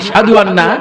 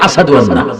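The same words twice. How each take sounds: First: The word has a clear sh sound. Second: The word has an s sound instead. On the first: The speaker calls it right. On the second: The speaker calls it wrong.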